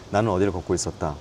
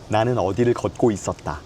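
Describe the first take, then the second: First: The mouth barely opens, with small, mumbled articulation. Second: The mouth opens wide with crisp, clear articulation.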